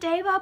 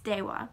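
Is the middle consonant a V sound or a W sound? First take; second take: V sound; W sound. First: The middle consonant is a v sound. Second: The middle consonant is a w sound. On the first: "You can pronounce it Deva" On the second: "the proper pronunciation is Dewa"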